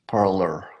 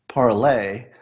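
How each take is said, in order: First: The word ends with an 'er' sound. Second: The word ends with an 'ay' sound. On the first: It is read as an English word. The speaker calls it right. "it's actually pronounced parlor" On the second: It is read as a foreign word. The speaker calls it wrong. "Somebody's saying it's pronounced parlay"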